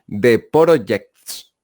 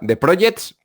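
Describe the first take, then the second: First: An extra O vowel is squeezed into the name. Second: The name is said without any extra vowel. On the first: "pero con otra O por ahí metida" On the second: "como si fuera The Projects"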